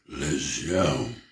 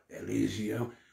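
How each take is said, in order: First: It is said in a layered, many-voiced voice. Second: It is said in a plain normal voice.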